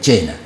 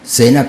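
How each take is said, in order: First: The name begins with a ch sound. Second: The name begins with an s sound. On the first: "que se pronuncia Chena, en gringo" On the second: "Sena con C"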